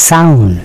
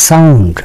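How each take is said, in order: The two takes are said the same way.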